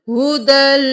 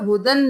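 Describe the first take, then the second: First: The word ends with an l sound. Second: The word ends with an n sound. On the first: The speaker calls it right. "दाल दो जबर लाम दल" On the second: The speaker calls it wrong. "यहाँ पर हुदन नहीं करना"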